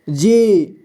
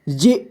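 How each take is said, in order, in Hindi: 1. अंतिम स्वर लंबा खींचा जाता है। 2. अंतिम स्वर छोटा काटा जाता है। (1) "लंबे समय तक उच्चारण करेंगे इसका" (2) "अगर छोटी ई होता तो इसे कम समय में पढ़ते"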